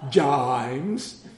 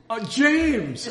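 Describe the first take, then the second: First: "Jimes" with a long drawled Texan "ai" in place of the "ay" of James, rising at the end. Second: "James" said with a clear standard "ay", pitched high in sudden understanding; finally getting it. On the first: A little Texan kid repeating his name, "Jimes" drawled with a Texan "ai". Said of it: "trying to translate a Texan". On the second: The pastor realising the kid meant James, "James" with a standard vowel. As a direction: say "James" right, the penny dropping with a laugh. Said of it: "I needed a translator". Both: Retold or imitated.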